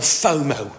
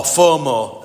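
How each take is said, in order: First: Said in the usual way. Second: FOMO in a broad northern English accent, said louder; northern English "fomo", long flat O sounds. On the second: Shown as a demonstration. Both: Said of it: "as we say up north".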